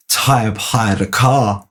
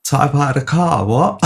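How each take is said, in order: First: Slow, deliberate deadpan; Adam drops the news slowly; slow announcement. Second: Higher, disbelieving "car?"; echoing the news with raised disbelief; incredulous echo. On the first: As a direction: lay it out slowly, word by word. Adam's deadpan announcement retold. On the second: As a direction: repeat it back in shock. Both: Retold or imitated.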